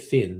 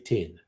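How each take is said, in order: First: The word begins with a th sound. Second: The word begins with a t sound. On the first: "They won't say thin" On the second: "They'll say tin"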